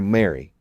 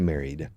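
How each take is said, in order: First: The word ends without its final d sound. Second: The word ends with a clear final d sound. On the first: The speaker calls it wrong. "they will not make the effort to finish the words" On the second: The speaker calls it right. "They never say married"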